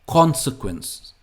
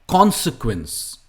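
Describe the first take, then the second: The two takes are said the same way.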